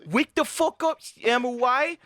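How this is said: It is said in a baby voice.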